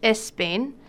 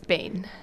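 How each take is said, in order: First: An extra vowel sound comes before the s. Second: The word begins directly with the s sound. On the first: The speaker calls it wrong. "añadiendo una E antes de la S" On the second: The speaker calls it right. "No, es Spain"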